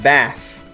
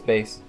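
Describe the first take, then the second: First: It is pronounced like the word for the fish. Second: It is pronounced like the music word, bass boosted. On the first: The speaker calls it wrong. "I used to think bass um, was read bass... I would think of the fish" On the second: The speaker calls it right. "I have to correct myself sometimes... oh no, it's it's bass"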